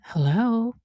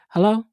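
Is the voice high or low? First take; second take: high; low. First: It is said in a high, sweet voice. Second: It is said in a low, plain voice.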